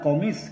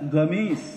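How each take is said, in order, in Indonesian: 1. Kata ini diawali dengan bunyi q yang dalam. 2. Kata ini diawali dengan bunyi g yang keras. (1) "Asalnya sih kalimatnya komis" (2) "kalau orang Saudi itu komisun, itu dibacanya gamis"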